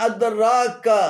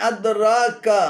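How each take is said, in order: Both takes have the same delivery.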